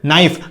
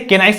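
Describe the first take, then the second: First: The k sound is left silent. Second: The k sound is pronounced at the start. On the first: The speaker calls it right. "क्योंकि के क्या होता है? Silent" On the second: The speaker calls it wrong. "तो आप इसे के नाइफ नहीं पढ़ते"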